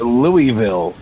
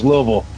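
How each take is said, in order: First: Each syllable of the name is said separately. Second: The syllables of the name are slurred together. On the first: An outsider said it. The speaker calls it wrong. "people be like, oh, uh, that that's that's near Louisville" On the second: A local said it. The speaker calls it right. "no, it's Louisville"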